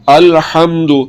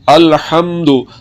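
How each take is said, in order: The two takes are said the same way.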